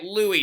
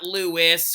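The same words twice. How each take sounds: First: The name is said the French way. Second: The name is said the English way. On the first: The speaker calls it right. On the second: The speaker calls it wrong.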